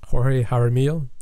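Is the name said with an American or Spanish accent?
Spanish. The name is said with a Spanish-style accent.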